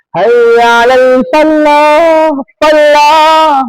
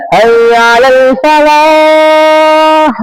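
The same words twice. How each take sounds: First: "Hayya 'alal falah" chanted high and slow, l doubled as fal-lah; sung, azan with tasydid. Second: "Hayya 'alal falah" sung high and slow, single l in "falah"; sung, intone the azan, holding the last vowel of "falah"; high, long-held muezzin chant; sung, call to prayer. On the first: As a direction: sing the call, leaning on a double l in "falah". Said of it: "kasih tasydid". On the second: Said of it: "Kalau ada orang yang azan". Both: Shown as a demonstration.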